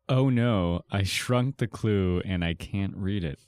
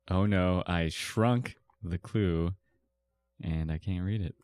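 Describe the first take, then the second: First: The word shrunk gets no special emphasis. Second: The word shrunk is strongly emphasized.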